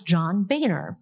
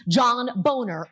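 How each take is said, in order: First: Said in the usual way. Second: Boner said slowly with a long O, as BOH-ner; mispronounced surname. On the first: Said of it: "how do you spell the last name Boehner?". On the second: Retold or imitated. Anchor retells her on-air slip, surname mispronounced as Boner. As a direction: say Boner to rhyme with owner, drawn out. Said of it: "I said boner".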